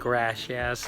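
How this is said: It is said with an English accent. The speaker calls it wrong.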